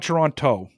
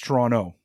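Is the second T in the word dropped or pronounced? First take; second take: pronounced; dropped. First: The second T sound is clearly pronounced. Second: The second T sound is dropped. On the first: This is how outsiders say the city's name. The speaker calls it wrong. "It's not Toronto" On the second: This is how locals say the city's name. The speaker calls it right. "It's Toronto without a T"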